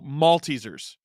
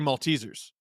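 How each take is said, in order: First: The stress is on the first syllable, malt. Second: The stress is not on the first syllable. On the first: This is how it is said in Scotland. "the Scottish way is to emphasize malt" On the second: This is how it is said in Canada. "But I say Maltesers. And that's Canadian"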